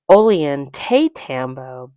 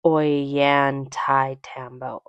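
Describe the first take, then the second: First: Ollantaytambo said by its letters, "oh-lee-an-TAY-tambo"; read as spelled. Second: Ollantaytambo said slowly as "oy-yan-tie-TAM-bo"; as pronounced. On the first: Telling viewers how the town is spelled, reading it literally. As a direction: sound Ollantaytambo out as written, L heard and TAY stressed. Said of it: "It's spelled Ollantaytambo". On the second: Telling viewers how the town is pronounced, slow demonstration. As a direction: sound out Ollantaytambo with no L and "tie" in the middle. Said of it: "but pronounced". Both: Shown as a demonstration.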